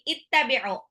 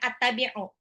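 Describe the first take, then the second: First: The word begins with an 'i' vowel. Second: The word begins with an 'a' vowel. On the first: The speaker calls it right. "tapi ittabi'u" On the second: The speaker calls it wrong. "bacanya bukan attabi'u"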